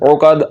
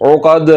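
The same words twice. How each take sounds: The two takes are said the same way.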